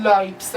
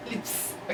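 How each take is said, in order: First: لایپس with a long "eye" vowel, like "lipes"; wrong vowel in lips. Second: Said in the usual way. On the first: Shown as a demonstration. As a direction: mispronounce it as لایپس, rhyming with "pipes".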